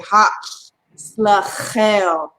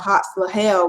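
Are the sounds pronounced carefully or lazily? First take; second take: carefully; lazily. First: The sounds are pronounced carefully and fully. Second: The sounds are pronounced in a lazy, slack way. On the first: The speaker calls it right. "We have to say" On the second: The speaker calls it wrong. "We can't be lazy. We can't say"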